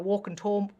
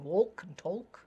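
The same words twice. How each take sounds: First: The L in both words is silent. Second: The L in both words is pronounced. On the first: This is how the words sound today. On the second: This is how the words sounded centuries ago.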